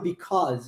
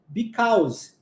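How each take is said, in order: First: It is said with a natural English pronunciation. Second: It is said with a Portuguese-influenced pronunciation. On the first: The speaker calls it right. "eu não falava because" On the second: The speaker calls it wrong. "Que era o meu padrão linguístico do português é, influenciando na minha pronúncia"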